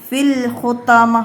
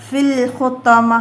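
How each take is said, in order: Both takes have the same delivery.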